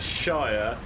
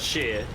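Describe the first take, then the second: First: The word rhymes with 'fire'. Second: The word rhymes with 'ear'. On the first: The speaker calls it right. "This is a shire" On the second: The speaker calls it wrong. "not a shear"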